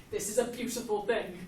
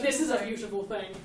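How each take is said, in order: First: "a" given the weight in "this is a beautiful thing"; stress on a. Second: "is" given the weight in "This is a beautiful thing"; stress on is. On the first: Teacher checks stress on "a" in "this is a beautiful thing". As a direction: lean on "a". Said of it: "Is this a beautiful thing, or is it". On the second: Teacher checks stress on "is" in "This is a beautiful thing". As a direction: lean on "is". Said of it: "or is it". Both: Shown as a demonstration.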